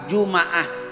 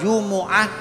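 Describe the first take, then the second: First: The m is followed by an a vowel. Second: The m is followed by a u vowel. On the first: "dibaca Fathah" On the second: "dibaca Dhammah"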